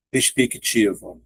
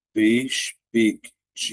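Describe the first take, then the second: First: Said in the usual way. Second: "perspectiva" very slowly, with gaps between syllables; slow classroom breakdown of "perspectiva". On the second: Shown as a demonstration. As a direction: break "perspectiva" into separate syllables, closing "pec" on its consonant. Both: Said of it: "Então, vai ficar".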